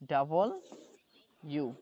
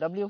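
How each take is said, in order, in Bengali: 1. নামটি বলা হয় double u। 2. নামটি মিশে গিয়ে dabliu হয়ে যায়। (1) "এটা পড়বেন ডাবল ইউ" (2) "ডাব্লিউ ডাব্লিউ পড়ি না"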